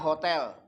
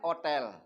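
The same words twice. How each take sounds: First: The word begins with an h sound. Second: The word begins without an h sound. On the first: This is how the word is spelled. "Tulisannya hotel" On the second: This is how the word is actually spoken. "Nyebutnya hotel"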